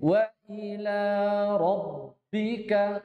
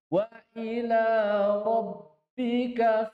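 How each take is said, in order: First: The vowel of 'bi' is kept short. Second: The vowel of 'bi' is drawn out long. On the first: The speaker calls it right. "seharusnya seperti itu" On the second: The speaker calls it wrong. "Apa salah? Bi-nya panjang dulu"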